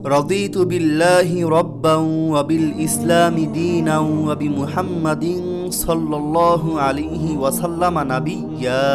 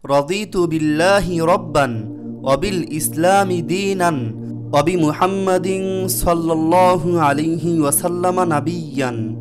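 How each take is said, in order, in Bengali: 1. এক শ্বাসে পড়তে হয়, শেষ শব্দ nabiyya। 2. থেমে থেমে পড়তে হয়, শেষ শব্দ nabiyyan।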